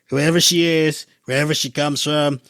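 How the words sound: It is said in an imitated, put-on voice.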